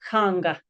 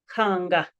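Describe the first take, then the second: Both takes have the same delivery.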